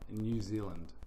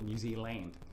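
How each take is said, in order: First: It is said loosely in a New Zealand accent. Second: It is said more sharply in an Australian accent. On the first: "being a Kiwi, we would say ... which is quite lazy"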